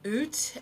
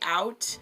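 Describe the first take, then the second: First: The word is said in a Canadian accent. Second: The word is said in a standard accent.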